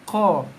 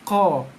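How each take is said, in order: First: The vowel is said with relaxed, unrounded lips. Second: The same.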